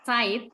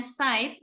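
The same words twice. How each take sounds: First: "side" begun with a Z sound; S read as Z. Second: "side" begun with a hissed S sound; Z read as S. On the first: Teacher contrasting German words, "side" with Z at the start. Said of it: "dia itu seperti dibaca set". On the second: Teacher contrasting German words, "side" with hissed first sound. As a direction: start "side" sharply unvoiced, like S. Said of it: "itu seperti dibaca S". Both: Shown as a demonstration.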